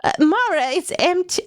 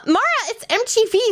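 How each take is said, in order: First: Grandma voice. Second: Said in the usual way. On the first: Acted. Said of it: "I was doing grandma voice". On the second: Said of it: "Sorry, I was imitating my grandma".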